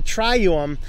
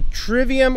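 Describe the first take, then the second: First: The middle consonant is replaced by a u vowel. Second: The middle consonant is a clear v sound. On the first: "that V is, was pronounced more like a U" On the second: "I'm not sure if this is pronounced the trivium"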